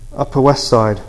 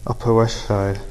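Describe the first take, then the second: First: It is said clearly and soberly. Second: It is said in a slurred, drunken way.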